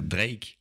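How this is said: The name is said with a French accent. "on va dire les mots anglais avec un accent français"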